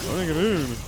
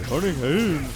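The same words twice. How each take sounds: No difference in how they are said.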